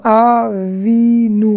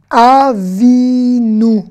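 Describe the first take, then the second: First: Avinu again very slowly, a-vi-nu; Avinu, stretched gently; slow model word. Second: Avinu spoken very slowly and louder, a-vi-nu; Avinu, stretched out for repeating; slow model word. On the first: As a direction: lay out each syllable of Avinu. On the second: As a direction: draw out each syllable of Avinu. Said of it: "Notre père". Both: Shown as a demonstration.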